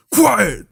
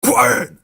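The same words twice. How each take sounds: First: High, loud barked order; adult teacher yelling voice. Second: High, loud barked order; repeated teacher yell. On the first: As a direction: yell it like an angry teacher. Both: Retold or imitated. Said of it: "that adult teacher yelling voice".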